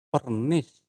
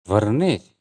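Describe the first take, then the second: First: The word begins with a p sound. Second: The word begins with a v sound. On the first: This is how speakers actually say it. "tapi pernis" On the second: This is the original form, which speakers do not use. "Kita tidak pernah mengucapkan mengucapkan vernis"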